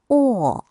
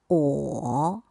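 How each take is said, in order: First: The syllable is said with the fourth tone. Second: The syllable is said with the third tone.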